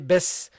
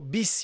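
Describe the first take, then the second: First: The first vowel is an e sound. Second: The first vowel is a clear i sound. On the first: The speaker calls it wrong. "you don't say bes" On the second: The speaker calls it right. "so you go bis"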